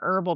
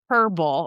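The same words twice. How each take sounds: First: It begins with no h sound. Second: It begins with an audible h sound. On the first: "rather than herbal" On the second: "in some places they have herbal"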